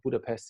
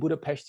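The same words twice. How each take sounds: First: The final consonant is a plain s sound. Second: The final consonant is an sh sound. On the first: This is the visitors' pronunciation. "tourists, you know, visitors" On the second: This is the local pronunciation. "is how the Hungarians pronounce it"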